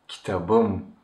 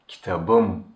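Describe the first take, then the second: The two takes are said the same way.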